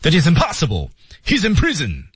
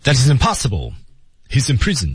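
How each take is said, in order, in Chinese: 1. 急切地说，气息急促紧张。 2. 平静地说，有停顿，语调下降。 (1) "叫急切，我们把气息节奏调成" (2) "中间停顿，语调降调"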